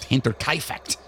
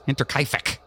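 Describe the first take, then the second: First: The name ends with an added t sound. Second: The name ends in a k sound. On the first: The speaker calls it wrong. "there's no T at the end" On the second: The speaker calls it right. "It's just feck"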